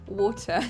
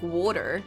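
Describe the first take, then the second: First: The middle consonant is a clear T. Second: The middle consonant sounds like a soft D. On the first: "the posh way then" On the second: "I could say D instead of a T"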